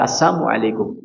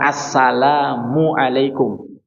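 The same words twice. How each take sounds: First: The greeting is pronounced in a twisted form. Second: The greeting is pronounced in its normal form.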